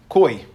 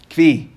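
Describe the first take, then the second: First: The word has an 'oy' vowel, with no v. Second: The word has a v and an 'ee' vowel. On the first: The speaker calls it right. "I think the proper pronunciation is koi" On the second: The speaker calls it wrong. "in yeshivas they say kvi"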